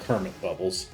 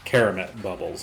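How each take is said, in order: First: The first word has two syllables, Ker-mit. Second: The first word has three syllables, Ke-ra-met. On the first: The speaker calls it wrong. "not uh" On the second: The speaker calls it right. "I actually said it correctly"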